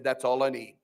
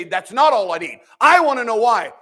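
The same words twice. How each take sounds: First: Soft, lower, content "That's all I need"; quiet surrender. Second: Mock-insistent, louder and higher, "not" punched; demanding complaint. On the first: Acted. Job humbly accepting God's answer, quiet. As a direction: say "That's all I need" softly, settling the matter. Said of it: "Job shut his mouth and he said". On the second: People demanding answers from God, mock insistent. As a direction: whine "That's not all I need" with "not" stressed hard. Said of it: "we say".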